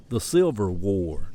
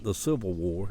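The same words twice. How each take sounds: First: "Silver War" for Civil War, said slowly; slow Southern mispronunciation "Silver War"; dialect "Silver War". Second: Said in the usual way. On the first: Retold or imitated. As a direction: civil turned into "Silver", drawn out. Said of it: "He still calls it". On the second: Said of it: "not the Civil War".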